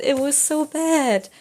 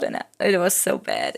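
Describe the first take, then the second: First: Higher, slow, "bad" drawn out; emphatic repeat. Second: Said in the usual way. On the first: Real, not acted. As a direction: lean into "bad" the second time.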